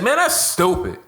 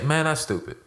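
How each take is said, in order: First: It sounds harsh and aggressive. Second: It sounds mild and disappointed.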